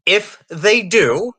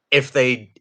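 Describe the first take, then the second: First: "if" drawn out slowly and raised higher; stress on if. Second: Said in the usual way. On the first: Shown as a demonstration. Host stresses "if" about a HIPAA list, slow and high. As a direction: lean hard on "if" and stretch it. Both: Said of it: "emphasis on the word if".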